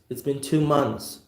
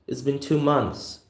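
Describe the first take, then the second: No difference in how they are said.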